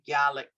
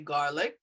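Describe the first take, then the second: First: The r sound is dropped. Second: The r sound is clearly pronounced. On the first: "R sounds tend to get lost" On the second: "we wouldn't say garlic"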